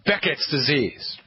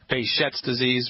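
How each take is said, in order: First: The name is said the English way. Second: The name is said the French way. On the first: The speaker calls it wrong. "Probably pronounced that incorrectly" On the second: The speaker calls it right. "It's a French word. French name"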